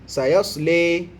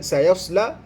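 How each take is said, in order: First: The final vowel leans toward an 'e' sound. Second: The final vowel is a plain open 'a'.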